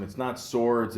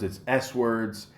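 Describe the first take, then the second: First: Said in the usual way. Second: "S words" said slowly, with the S split off clearly; slow down and spell out the S in "S words"; stress on S. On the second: Shown as a demonstration. Correcting the misread category, stressing the S. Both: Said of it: "he corrects him".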